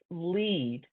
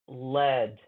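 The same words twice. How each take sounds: First: The vowel is long, like in 'seed'. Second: The vowel is short, like in 'bed'. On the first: It is the verb meaning to guide. "is pronounced lead, okay, when it's a verb" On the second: It is the noun naming a metal. "when you're talking about the, the mineral or the metal"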